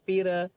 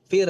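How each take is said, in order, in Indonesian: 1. Konsonan akhir memiliki pantulan gema tambahan. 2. Konsonan akhir berhenti dengan bersih tanpa gema. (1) "suka pantul-pantul"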